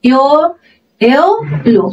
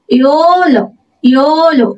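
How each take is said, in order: First: ইয়ো first alone, then ইয়োলো the British way; British English ইয়োলো, broken after ইয়ো; British variant. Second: ইয়োলো with a drawn-out o sliding toward u; American English ইয়োলো, diphthong in it; American o-u glide. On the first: Teacher offers learners the alternative, ইয়োলো in British English. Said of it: "British ইংলিশে এটাকে আমরা". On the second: Teacher models yellow for learners, ইয়োলো with American o-u diphthong. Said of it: "এবার এটা American ইংলিশে". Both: Shown as a demonstration.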